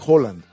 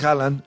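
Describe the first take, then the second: First: The name is pronounced the Norwegian way. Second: The name is pronounced the Spanish way. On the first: This is how people in Norway say it. "Para ellos es Erling Haaland" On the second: This is how Spanish speakers say it. "Para nosotros es Haaland"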